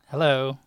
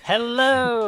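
First: It is said in a flat, low-energy way. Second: It is said with lively, high energy.

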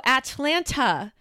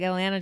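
First: The T sounds in the word are clearly pronounced. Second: The T sounds in the word are dropped. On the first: The speaker is not from the South. The speaker calls it wrong. "girl, you're not from the South, are you?" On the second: The speaker is from the South. The speaker calls it right. "she doesn't pronounce the T's in Atlanta"

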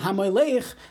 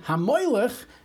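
First: The stress is on the final syllable. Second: The stress is on the middle syllable. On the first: The one who reigns as king. The speaker calls it right. "Instead of saying Hamoylech, the one who is a king" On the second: The idol Molech. The speaker calls it wrong. "they end up saying Hamoylech. He was the Moylech"

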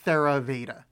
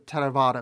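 First: The word begins with a th sound. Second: The word begins with a hard t sound. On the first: The speaker calls it wrong. "it's less wrong than saying Theravada" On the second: The speaker calls it right. "all I'm going to adopt from this is the harder T sound"

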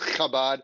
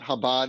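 First: It starts with a harsh, throaty ch sound. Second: It starts with a soft, plain sound. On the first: The speaker calls it right. "If you're not spitting your friend in the face, you're not saying it right" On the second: The speaker calls it wrong. "It's not Chabad"

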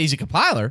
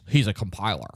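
First: The tone is bright and excited. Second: The tone is flat and unimpressed. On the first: Being a compiler is a good thing. "you're like, oh, shit, yeah" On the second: Being a compiler is a bad thing. "It's only bad if you say it like this"

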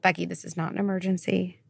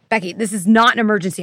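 First: The tone is gentle and reassuring. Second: The tone is harsh and blaming. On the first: The speaker is calming herself. The speaker calls it right. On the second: The speaker is scolding herself. The speaker calls it wrong.

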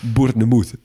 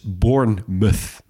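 First: The word has a French-style pronunciation. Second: The ending is a reduced 'muth'. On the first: The speaker calls it wrong. "Of zoals een Frans collega van mij ooit zei" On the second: The speaker calls it right. "Dus Bournemouth"

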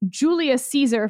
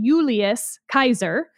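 First: The second word starts with an S sound. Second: The second word starts with a K sound. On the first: This is the usual English pronunciation. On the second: This is the classical Latin pronunciation.

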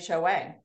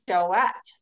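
First: The final T sound is silent. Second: The final T sound is pronounced. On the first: The speaker calls it wrong. "I always was thinking it was" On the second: The speaker calls it right. "if there are two dots over the E, that you pronounce the T"

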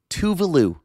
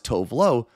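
First: It runs together as one word, 'Tuvalu'. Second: Two words, the second ending in an 'oh' sound. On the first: The speaker calls it right. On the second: The speaker calls it wrong.

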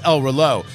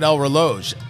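First: The final J sound is silent. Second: The final J sound is pronounced. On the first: The speaker calls it right. "The J is silent" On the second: The speaker calls it wrong. "I've been pronouncing it wrong all these years"

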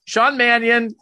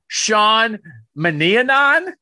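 First: The surname is said with two short syllables. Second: The surname is drawn out with extra syllables. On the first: The speaker calls it right. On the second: The speaker calls it wrong.

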